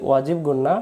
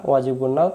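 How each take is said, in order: The two takes are said the same way.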